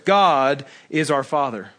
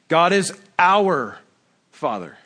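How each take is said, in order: First: The word God is stressed. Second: The word our is stressed.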